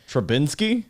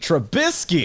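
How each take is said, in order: First: An N sound comes before the final syllables. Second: No N sound comes before the final syllables. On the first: The speaker calls it wrong. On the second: The speaker calls it right.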